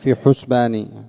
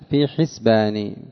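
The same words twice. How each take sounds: First: The first vowel of the word is 'u'. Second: The first vowel of the word is 'i'. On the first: It means 'in my counting'. The speaker calls it wrong. "ولا تقول في حسباني" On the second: It means 'in my expectation'. The speaker calls it right. "بالكسر"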